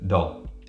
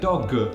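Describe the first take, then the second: First: The final G is weak and cut short. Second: The final G is strongly and fully released. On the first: The speaker calls it right. "it's just dog" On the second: The speaker calls it wrong. "We don't say dog"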